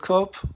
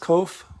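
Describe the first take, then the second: First: The word ends with a P sound. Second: The word ends with an F sound. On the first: "Masoretic does not pronounce it as kop" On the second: "They pronounce it as kof with an F"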